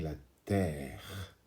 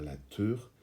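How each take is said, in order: First: The vowel is an open 'eh' sound. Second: The vowel is a rounded 'uh' sound. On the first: The speaker calls it right. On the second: The speaker calls it wrong. "on ne va pas dire"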